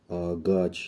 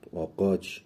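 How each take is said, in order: First: The middle consonant is a hard g sound. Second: The middle consonant is a back q sound. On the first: "آگاچ یا آ- آقاچ خونده نمیشه" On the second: "آگاچ یا آ- آقاچ خونده نمیشه"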